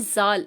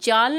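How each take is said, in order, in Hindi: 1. यह शब्द z की ध्वनि से शुरू होता है। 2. यह शब्द j की ध्वनि से शुरू होता है। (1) "इसे जाल" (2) "जाल ना पढ़िएगा"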